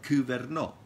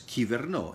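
First: It is said with the ancient Greek pronunciation. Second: It is said with the modern Greek pronunciation. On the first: "In ancient Greek, it was pronounced like kuverno" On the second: "In Greek, it is pronounced as kiverno"

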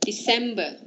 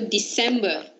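First: The middle C sounds like an S. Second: The same.

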